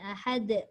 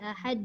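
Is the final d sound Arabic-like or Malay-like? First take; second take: Arabic-like; Malay-like. First: The final d has the tongue tip behind teeth. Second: The final d is said like a Malay d. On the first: The speaker calls it right. "dia kena ahad" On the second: The speaker calls it wrong. "Tak boleh ahad"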